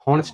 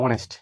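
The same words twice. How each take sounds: First: হনেস্ট with an h sounded at the start; wrong pronunciation. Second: অনেস্ট with a silent h, starting on the vowel; correct pronunciation. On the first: Teacher shows students the wrong way, হনেস্ট with h. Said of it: "হনেস্ট না". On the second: Teacher gives students the right form, অনেস্ট without h. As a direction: open অনেস্ট straight on the vowel. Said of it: "এটা আমরা কি বলবো". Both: Shown as a demonstration.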